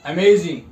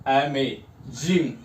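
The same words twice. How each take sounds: First: "amazing" said as one word, loud and firm; louder whole-word model of "amazing"; stress on last syllable. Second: "amazing" drawn out slowly, low, with a break before "Jing"; split into syllables. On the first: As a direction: punch "amazing" briskly in one piece, weight toward "Jing". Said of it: "last वाले पे थोड़ा सा stress". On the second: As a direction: slowly separate unstressed "अमे" from "Jing". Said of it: "दोनों जो syllable है unstress है". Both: Shown as a demonstration.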